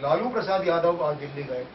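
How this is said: The stress falls on the name Lalu. Lalu went, not some other politician. "यानी अटल बिहारी वाजपेयी नहीं गए, सोनिया नहीं गई"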